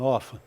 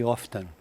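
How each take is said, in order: First: Often with silent t, OF-en; American often. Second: Often with the t sounded, OF-ten; British often. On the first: Teacher demonstrates her American Often. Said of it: "eu uso a pronúncia americana". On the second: Teacher contrasts British often with American. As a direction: pronounce often with a clear t. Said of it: "A britânica geralmente eu já ouvi often". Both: Shown as a demonstration.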